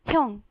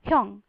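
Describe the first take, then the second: Both takes have the same delivery.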